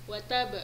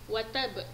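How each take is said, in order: No difference in how they are said.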